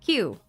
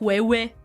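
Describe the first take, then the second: First: It is said as one short syllable. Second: It is stretched into a playful, longer sound. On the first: This is the proper pronunciation. The speaker calls it right. "it's Q" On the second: It is a deliberate mispronunciation for fun. The speaker calls it wrong. "I do like mispronouncing things in a funny way"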